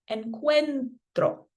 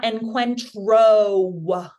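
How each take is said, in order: First: "encuentro" slow, with a soft R that just pops. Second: "encuentro" slow and louder, with a heavy clawed R; hard, clawing R. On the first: Teacher showing students the nice version, soft R in "encuentro". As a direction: lightly tap the R in "encuentro". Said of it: "So it's nice and soft". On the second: Teacher showing students what to avoid, clawing R in "encuentro". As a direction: overdo the R in "encuentro", dragging it out. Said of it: "like, claw to it". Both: Shown as a demonstration.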